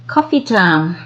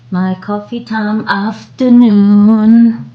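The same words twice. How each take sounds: First: Said in the usual way. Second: Higher, louder and slower, lilting on afternoon; sing-song announcement. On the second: Shown as a demonstration. Vlogger announcing coffee time, high lilting sing-song. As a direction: announce it like a cheerful jingle.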